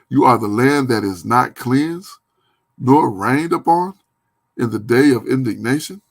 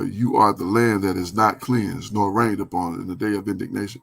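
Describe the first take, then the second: First: It is read with a questioning tune. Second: It is read with a statement tune.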